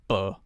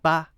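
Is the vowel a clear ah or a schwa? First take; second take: schwa; ah. First: The vowel is a reduced schwa sound. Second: The vowel is a clear, full ah sound. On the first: The speaker calls it right. "It's more like the schwa sound" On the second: The speaker calls it wrong. "we don't say the ah sound clearly"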